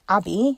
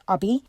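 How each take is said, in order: First: The first vowel is an 'a' sound. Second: The first vowel is an 'uh' sound. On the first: This is how other people say the name. "you're saying an a sound" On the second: This is how the family says the name. "there's a uh sound"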